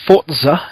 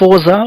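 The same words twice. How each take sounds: First: The word has a 't' sound before the 'z'. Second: The word has no 't' sound before the 'z'.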